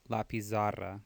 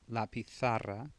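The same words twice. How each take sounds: First: The z is pronounced as a buzzing z. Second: The z is pronounced as a th sound. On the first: The speaker calls it wrong. "don't say la pizarra. It's not a Z sound" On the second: The speaker calls it right. "or T H sound in Spain"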